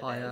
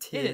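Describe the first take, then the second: First: The vowel sounds like the word 'tire'. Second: The vowel sounds like the word 'tier'. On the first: "and I call it tire" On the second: "It's probably tier"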